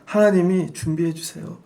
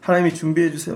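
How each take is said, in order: First: It is said in an earnest, pleading tone. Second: It is said in a snide, grudging tone.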